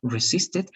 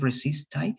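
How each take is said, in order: First: "Resisted" ending in a short "tid", not "tite"; correct pronunciation demo. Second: "resisted" wrongly ending in "tite", like "tight"; mispronunciation demo. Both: Shown as a demonstration. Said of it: "Not "ite," instead of".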